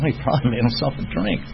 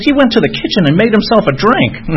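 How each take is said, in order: First: Softer, unimpressed inner voice; understated aside, as if privately guessing; thinking to himself. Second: Imitating her in a much higher voice; mock scandalized, pitched right up; upset girlfriend. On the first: Retold or imitated. Recovering drinker privately guessing what the patient did, understated. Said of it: "I'm thinking to myself". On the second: Hospice nurse girlfriend revealing the patient's drink, mock appalled. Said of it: "she was all upset".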